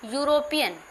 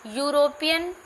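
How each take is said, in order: Both takes have the same delivery.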